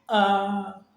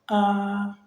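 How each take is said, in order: The two takes are said the same way.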